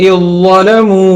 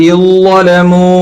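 The two takes are said the same way.

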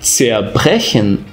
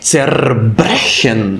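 First: The prefix r is sounded like an a vowel. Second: The prefix r is sounded as a consonant. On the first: The speaker calls it right. "ou zerbrechen" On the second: The speaker calls it wrong. "e não zerbrechen"

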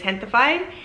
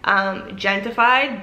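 First: The word is pronounced with Spanish sounds. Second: The word is pronounced with English sounds. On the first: "maybe it's gentified in Spanish" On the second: "if you say it the non-Spanish way"

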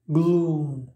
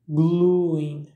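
First: A long 'oo' vowel with no glide after it. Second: An 'ee' glide follows the 'oo' vowel. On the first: "se prononce comme OU, mais c'est un OU long" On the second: "Vous allez peut-être entendre le i après la voyelle u"

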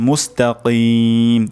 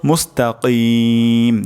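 No difference in how they are said.

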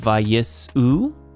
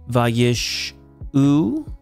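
First: The middle consonant is a plain 's' sound. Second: The middle consonant is an 'sh' sound. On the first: The speaker calls it right. "it's a seen" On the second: The speaker calls it wrong. "It's not a sheen"

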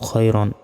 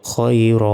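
First: The word ends in -an with a final n. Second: The word ends in a long a without n. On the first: "র আলিফ 2 জবর রন" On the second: "থামলে একটা জবরের উচ্চারণ হবে"

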